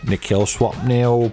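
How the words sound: It is said in a put-on British voice.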